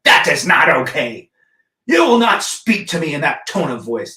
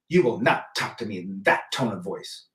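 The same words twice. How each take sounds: First: Loud stern put-on voice, imitating his ex; mocking ex's scolding. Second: Mocking ex's scolding. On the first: Imitating his ex scolding him, loud prim mock voice. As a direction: ham up a haughty, louder telling-off. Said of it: "She'd say things like". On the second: Imitating his ex scolding him, low prim mock voice. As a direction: lightly mimic her prim telling-off, dropping the pitch. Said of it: "she would say".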